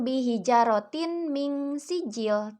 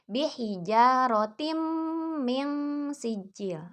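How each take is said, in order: First: A clear n sound is said before min. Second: The n merges into a held, nasal m. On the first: The speaker calls it wrong. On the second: The speaker calls it right.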